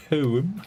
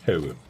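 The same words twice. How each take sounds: First: "Poem" high and rising, light breath; his own poem. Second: "Poem" with the air let out, low and airy; breathy poem. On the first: Shown as a demonstration. Showing chat his version, high rising "Poem". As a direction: lift "Poem" up at the end. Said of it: "I do it a little bit as well". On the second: Retold or imitated. Imitating viewer Stanley, airy low "Poem". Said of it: "lets out the air of his lungs".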